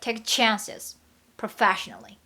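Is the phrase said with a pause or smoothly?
pause. There is a slight pause within the phrase.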